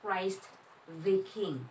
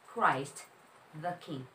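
First: The word 'the' is said as 'thee'. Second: The word 'the' is said as 'thuh'. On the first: The speaker calls it wrong. "hindi po siya Christ the king" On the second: The speaker calls it right. "But Christ the king"

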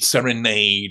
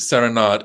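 First: The last syllable rhymes with made. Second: The last syllable does not rhyme with made. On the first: The speaker calls it right. "as if the two words rhyme" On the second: The speaker calls it wrong. "the Balanchine world does pronounce it Serenade, and the Balanchine world is wrong"

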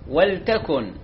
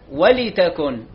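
First: The l carries no vowel. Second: The l is followed by an i vowel. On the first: The speaker calls it right. "اللام ساكنة" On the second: The speaker calls it wrong. "مو تكسر اللام"

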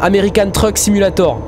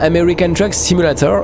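First: The title is said in a French accent. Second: The title is said in an English accent. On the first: The speaker calls it right. "voilà" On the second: The speaker calls it wrong. "faut que j'arrête de le dire comme ça"

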